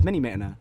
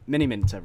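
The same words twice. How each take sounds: First: "Mini Minter" with the t of Minter dropped; slurred name. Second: Said in the usual way. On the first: Real, not acted. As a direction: slip on "Mini Minter", saying it like "Mini Minna".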